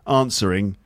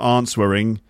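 First: The W sound is silent in the word. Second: The W sound is pronounced in the word. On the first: The speaker calls it right. "It's got a silent letter in it. ... it's the W" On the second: The speaker calls it wrong. "so it's not answering"

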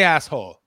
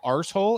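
First: It is said with a North American 'ass' vowel. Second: It is said with an Irish 'arse' vowel. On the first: "You're from Canada" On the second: "we're all from Ireland originally, so we'll say arsehole"

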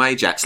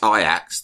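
First: The name is pronounced in the English way. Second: The name is pronounced in the Dutch way. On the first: It keeps the usual English pronunciation. The speaker calls it right. "like Big Ron" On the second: It imitates the local Dutch pronunciation. The speaker calls it wrong. "then you're being racist to the Dutch"

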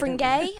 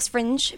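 First: The word is said with a French-style ending. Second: The word is said with a plain English ending. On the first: "I was doing the French pronunciation" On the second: "We're still sticking with Edinburgh Fringe"

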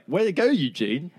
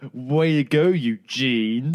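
First: It sounds sincere and pleased. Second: It sounds sarcastic and unimpressed.

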